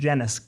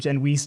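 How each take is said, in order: First: The name ends rhyming with tennis. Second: The name ends rhyming with fleece. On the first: It sounds less Italian. "not tennis ... to s- seem less Italian" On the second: It sounds more Italian. "originally Genoese, rhymes with fleece"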